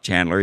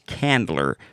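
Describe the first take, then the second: First: The name starts with a ch sound. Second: The name starts with a k sound. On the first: The speaker calls it wrong. "A lot of folk call it Chandler, but it's not Chandler" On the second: The speaker calls it right. "It's Candler"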